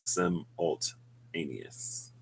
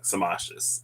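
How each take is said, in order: First: Every syllable of the word is sounded out. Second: The word is clipped short and slurred together. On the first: The speaker calls it right. "if I like go through the word" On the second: The speaker calls it wrong. "I never sounded out the word simultaneous. I guess I was too lazy in reading"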